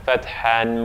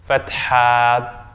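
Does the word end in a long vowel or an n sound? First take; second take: n sound; long vowel. First: The word ends with an n sound. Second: The word ends on a long a vowel. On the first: The reciter continues without stopping. "if I'm going on, I would say the the tanween there" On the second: The reciter stops after this word. "If I stop here, I say fatha. I say it as an alif"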